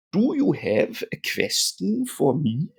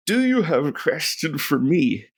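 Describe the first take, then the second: First: Slow, higher put-on German accent. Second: Said in the usual way. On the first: Teacher playfully repeats the app's question, mock German accent. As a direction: say "question" as "kvestion", German-style.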